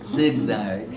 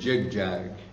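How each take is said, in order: First: It is said with plain English z sounds. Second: It is said with Bengali-style j sounds.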